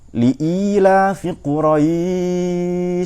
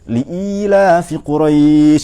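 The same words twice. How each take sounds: First: The long vowel is held longest, three beats. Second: The long vowel is held moderately, two beats. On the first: "sampai tiga alif kira-kira" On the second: "itu tawassud"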